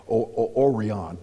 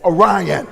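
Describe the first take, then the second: First: Mocking stumble, O-, O-, Orion said OR-ee-ahn; wrong pronunciation. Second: Orion said loud as oh-RYE-un; correct pronunciation. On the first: Mocking internet people who mispronounce the stars, stumbling on the name. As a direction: stammer then say Orion as OR-ee-ahn, the way people online get it wrong. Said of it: "they can't even pronounce it right". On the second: Shown as a demonstration. Preacher correcting the mispronunciation of Orion, loud and firm. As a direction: correct them firmly, oh-RYE-un. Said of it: "I said".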